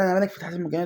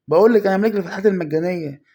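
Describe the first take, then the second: First: Said in the usual way. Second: Loud, fast triumphant boast; excited shout. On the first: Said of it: "يعني بقول لي". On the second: Real, not acted. Gamer boasting to viewers, loud and fast. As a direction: yell it like you just pulled a star.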